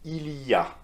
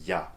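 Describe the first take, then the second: First: The opening il sound is clearly pronounced. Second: The opening il sound is dropped entirely. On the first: "its pronunciation is" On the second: "so you completely drop the il in front"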